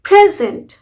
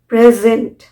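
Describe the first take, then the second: First: The stress is on the first syllable. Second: The stress is on the last syllable. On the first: It is a noun meaning a gift. "Stress आएगा pray पे" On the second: It is a verb meaning to show. "अब stress किस पे गया? Last पे, gent पे।"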